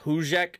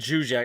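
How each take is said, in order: First: The name begins with an H sound. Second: The name begins with a J sound. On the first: The speaker calls it right. "It's pronounced like kind of like Hujek" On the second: The speaker calls it wrong. "I think I pronounced the J"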